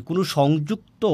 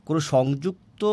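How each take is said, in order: Both takes have the same delivery.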